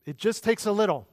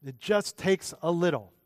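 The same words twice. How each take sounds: First: "It just takes a little" pitched high, pressing on "takes"; emphatic repetition. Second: "just" punched, then "takes a little" spaced out; emphatic repetition. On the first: Preacher stressing Paul's point about a little, high and emphatic. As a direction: lift the whole phrase high, punching "takes". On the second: Preacher driving Paul's point home, measured stress on "just". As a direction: repeat it more measured, leaning on "just". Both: Shown as a demonstration. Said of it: "emphasize the word little".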